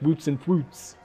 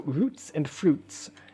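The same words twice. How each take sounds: First: The R sounds come out like W sounds. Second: The R sounds are pronounced clearly. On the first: "without it coming up like roots and fruits" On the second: "a bit of a tricky phrase to say"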